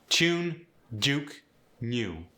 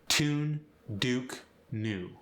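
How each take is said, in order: The two takes are said the same way.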